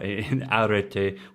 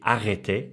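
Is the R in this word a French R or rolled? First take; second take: rolled; French. First: The R is rolled with the tongue tip. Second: The R is a French R, in the throat. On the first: The speaker calls it wrong. "with his rolled R" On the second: The speaker calls it right. "it should be arrêté"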